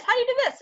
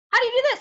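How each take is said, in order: First: Put-on high kid's question falling at end; kids asking again. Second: Put-on high, eager kid's question rising; kids asking. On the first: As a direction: keep the high child pitch, drop the end. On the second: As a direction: pitch way up like a curious child. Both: Teachers voicing kids' repeated questions.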